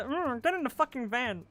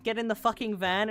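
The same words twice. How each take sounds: First: Lightly voiced Kermit the Frog; a hint of a menacing Kermit. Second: Said in the usual way. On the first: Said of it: "like, the Kermit voice". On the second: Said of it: "I can't do his voice very well".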